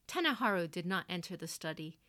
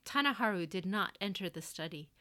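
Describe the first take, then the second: No difference in how they are said.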